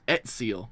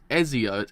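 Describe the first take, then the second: First: The middle consonant is a ts sound. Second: The middle consonant is a plain z sound.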